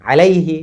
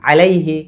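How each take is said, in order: Both takes have the same delivery.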